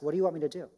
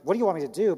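First: It is asked in a sincere, humble tone. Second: It is asked in a demeaning, condescending tone.

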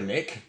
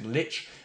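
First: The word ends with a k sound. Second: The word ends with a ch sound. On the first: The speaker calls it wrong. "many prefer Lick, but we've established that's incorrect" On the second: The speaker calls it right. "We harmonise on Lich"

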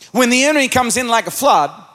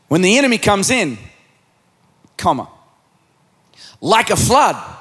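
First: The break comes after 'flood', not after 'in'. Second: The break comes after 'in', before 'like a flood'. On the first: The enemy is what comes like a flood. "you could read this verse like this" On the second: The Spirit is what comes like a flood. "you could also read the same verse like this"

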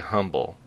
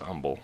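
First: The word begins with a pronounced h sound. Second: The word begins with a silent h. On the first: This is how ordinary people say it. "The goofballs like us say humble" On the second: This sounds more pious and spiritual. "the real spiritual guys are like, it's humble"

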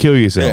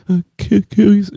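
First: It is said forcefully, with full conviction. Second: It is said hesitantly, with a stammer.

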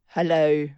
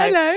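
First: It is said with a downturned mouth. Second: It is said with a smiling mouth.

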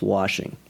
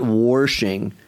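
First: It is said without any r sound. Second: It has an r, like the Kansas student.

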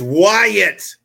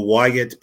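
First: The name is said loudly and energetically. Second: The name is said quietly and plainly. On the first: The speaker calls it right. "I was trying to save your ears, but it is Wyatt!" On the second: The speaker calls it wrong. "You didn't say that right"

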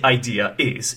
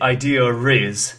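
First: No R sound comes between the words. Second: An R sound links the two words. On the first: "You could say idea is" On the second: "So they say idea riz"

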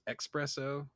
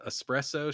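First: The word begins with an 'ex' sound. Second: The word begins with an 'ess' sound. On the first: The speaker calls it wrong. "she says expresso" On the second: The speaker calls it right. "Instead of espresso"

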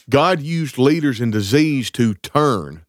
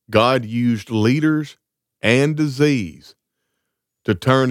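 First: The words stop with a break after 'turn'. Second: The words run on after 'turn' without a break. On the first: Turn means turning people back to God. The speaker calls it right. "that means turn people in the Old Testament back to him" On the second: Turn seems to go with the words that follow it. The speaker calls it wrong. "I read that with a wrong inflection"

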